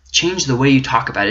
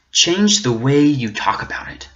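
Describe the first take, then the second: First: Said in the usual way. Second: Breathy whisper, then repeat it aloud. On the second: Acted. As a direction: hush it like a secret challenge. Challenge repeated, first whispered.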